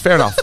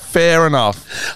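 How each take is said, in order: First: Said in the usual way. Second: Slow, laughing through the words; real giggles on a dry remark. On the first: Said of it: "repeats it laughing". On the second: Real, not acted. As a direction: let the laugh break the repeat. Repeat dissolving into laughter.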